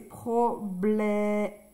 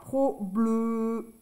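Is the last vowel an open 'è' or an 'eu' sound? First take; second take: open è; eu. First: The last vowel is an open 'è' sound. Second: The last vowel is an 'eu' sound. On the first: The speaker calls it right. "c'est un E accent grave" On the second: The speaker calls it wrong. "Si je mets pas d'accent"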